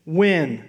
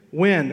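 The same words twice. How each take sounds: First: When said louder alone with a fall; When, a plain falling stress. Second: When stated firmly and louder; When, louder, falling; stress on when. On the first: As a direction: press on When. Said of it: "do you know what that word means". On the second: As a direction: land the word When. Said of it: "What's the word?". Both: Shown as a demonstration.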